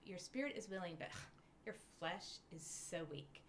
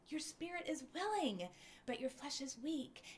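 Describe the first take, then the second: First: It sounds harsh and disapproving. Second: It sounds warm and gently cheering. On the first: The speaker is being judged for weakness. The speaker calls it wrong. "I read that with condemnation" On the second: The speaker is being lovingly encouraged. The speaker calls it right. "with the voice of God saying"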